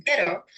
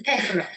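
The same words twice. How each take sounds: First: PERO with a quick single tongue-tap R; light Spanish tap in PERO; tapped R. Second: PERRO with a trilled Spanish R; long tongue-tip trill in PERRO; rolled R. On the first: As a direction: say PERO, flicking the R once on the ridge. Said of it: "tap the tip of the tongue". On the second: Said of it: "or roll it". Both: Shown as a demonstration.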